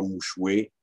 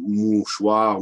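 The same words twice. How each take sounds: First: "mouchoué" ending in wé, no r; old "oué" ending. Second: Said in the usual way. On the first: Shown as a demonstration. Lecturer showing old usage, "mouchoué" for mouchoir. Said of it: "qui est, euh". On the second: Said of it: "le war".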